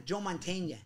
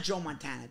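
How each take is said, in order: First: "Mantegna" said as man-TAYN-ya; "Mantegna" with the Italian -nya ending, man-TAYN-ya; Mantegna said right. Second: "Montana" said as mon-TAN-a, like the quarterback; correcting a mix-up, "Montana" as mon-TAN-a; Montana said wrong. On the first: Correcting friends on the actor's name, "Mantegna" as man-TAYN-ya. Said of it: "M-, no, Mantegna". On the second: Setting a name right, first the wrong "Montana" said as mon-TAN-a. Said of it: "No, not Joe Montana". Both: Shown as a demonstration.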